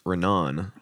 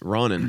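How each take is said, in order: First: The first vowel sounds like 'e'. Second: The first vowel sounds like 'o'. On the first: The speaker calls it right. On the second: The speaker calls it wrong.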